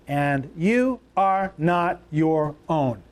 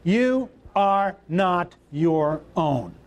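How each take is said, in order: First: Each word slow and weighted; slow emphatic reading. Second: Slow, deliberate, every word spoken apart; slow congregational repeat. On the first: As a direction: lay it down slowly, word by word. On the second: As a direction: say it back slowly with the crowd. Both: Shown as a demonstration. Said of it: "Say that right out loud".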